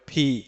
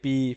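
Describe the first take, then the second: First: The first consonant has a puff of air. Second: The first consonant is plain, without a puff of air. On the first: The speaker calls it right. "হালকা আহ, বাতাস বের হবে মহাপ্রাণের মতো" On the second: The speaker calls it wrong. "অনেকে এটা বলে থাকে পি"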